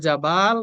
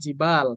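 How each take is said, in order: First: The first vowel is an open 'a' sound. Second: The first vowel is a high 'i' sound. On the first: This reading is acceptable but less commonly known. "Tapi dengan fathah juga nggak apa-apa. Cuma tidak ma'ruf ya" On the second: This is the usual, more common reading. "Seringnya tuh hadihi jibalun dengan kasroh ya"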